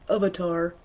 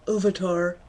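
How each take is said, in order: Both takes have the same delivery.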